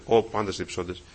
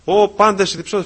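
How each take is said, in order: First: Said in the usual way. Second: High, loud cry to everyone; calling out loudly. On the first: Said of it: "όπως μιλάμε τώρα". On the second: Shown as a demonstration. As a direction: call it out as God's summons. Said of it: "φωνάζει ο Θεός". (δυνατή, υψηλή φωνή καλέσματος)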